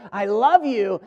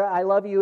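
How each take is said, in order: First: LOVE pushed with feeling, a bit stronger; emphatic. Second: Said in the usual way. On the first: Shown as a demonstration. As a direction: lean firmly on "love". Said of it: "and it is emphatic". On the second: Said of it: "in the routine ways that we do".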